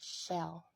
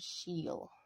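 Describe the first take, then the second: First: The vowel is a short eh sound. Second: The vowel is a long ee sound. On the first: The speaker calls it right. "the other sound for E, which is eh" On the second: The speaker calls it wrong. "the first sound for E, which is E ... it sounds really weird"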